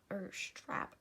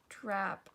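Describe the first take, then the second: First: "or strap" breathed as a quick whisper. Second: Said in the usual way. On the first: Real, not acted. Tutor correcting herself under her breath, whispering. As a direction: drop "or strap" to a whisper aside.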